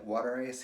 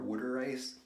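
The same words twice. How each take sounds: First: It is said in a neutral general American accent. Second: It is said in a local Philadelphia accent. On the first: "we call it water ice here" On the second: "in the Philadelphia accent"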